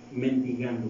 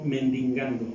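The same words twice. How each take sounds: First: Said in the usual way. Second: "mendigando" misread with an extra n, as "mendingando"; slip of the tongue. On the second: Real, not acted. Preacher reading of the blind beggar aloud, tongue slipping on "mendigando". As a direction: stumble on "mendigando", adding an n before the g. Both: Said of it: "perdón".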